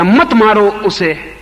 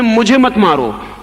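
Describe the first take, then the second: First: "मत मारो उसे" slow, higher and louder, pleading for the other; sympathy version. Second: "मुझे मत मारो" slow, higher and louder, weight on "मुझे" and "मत"; empathy version. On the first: Teacher voicing the sympathetic onlooker, slow raised plea. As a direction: plead on "उसे", for someone else. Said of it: "ये नहीं कह रहे कि उसे मत मारो". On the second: Teacher quoting Ramakrishna's own cry, slow raised emphasis. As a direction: cry it as your own pain. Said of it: "Ramakrishna कह रहे हैं". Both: Shown as a demonstration.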